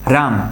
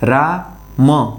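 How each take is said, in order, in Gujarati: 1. બે ઉચ્ચારણ જોડાઈને એક શબ્દ બને છે. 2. બે ઉચ્ચારણ વચ્ચે વિરામ સાથે અલગ અલગ બોલાય છે. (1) "જ્યારે હું એને સાથે બોલું ત્યારે હું શું બોલું છું" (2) "જ્યારે હું એને અલગ અલગ બોલું ત્યારે રા મ આવું બોલું છું"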